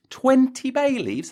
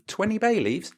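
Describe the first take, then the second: First: Twenty bay leaves? much higher, louder and slower; outraged disbelief. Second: Twenty bay leaves? asked high in disbelief; a first raised-eyebrow take on Twenty bay leaves?; incredulous. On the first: Repeating the listener's claim, he shouts high in shocked disbelief. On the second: Reading a listener's letter, he asks high in disbelief. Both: Acted.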